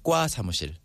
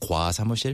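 First: The first consonant is tense, like a doubled k. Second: The first consonant is a plain soft k. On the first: This is how people actually say it. The speaker calls it right. "Like the pronunciation is harder" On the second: This is how it is written. The speaker calls it wrong. "Instead of 과 사무실"

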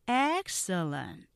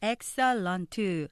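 First: The word is said in three syllables. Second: The word is said in four syllables. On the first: The speaker calls it right. "3음절로 하면서 앞에 액센트 강조하셔야 돼요" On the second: The speaker calls it wrong. "이렇게 4음절로 발음하기 쉬우신데"

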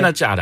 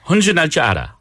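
First: It is said faster than before. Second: It is said at a normal pace.

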